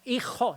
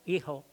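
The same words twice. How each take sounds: First: The first consonant is a harsh throat sound. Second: The first consonant is a soft breathy h. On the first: "No hijo" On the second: "pronunciación aspirada"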